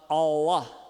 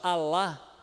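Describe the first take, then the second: First: The vowels sound deep with the tongue root retracted. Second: The vowels are said with a plain, open sound. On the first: "eles vão falar Allah" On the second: "em vez de falar Alá"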